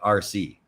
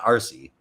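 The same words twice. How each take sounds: First: It is said as two separate letters. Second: It runs together as one name-like word. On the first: "like R C, like remote controlled" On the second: "not R C"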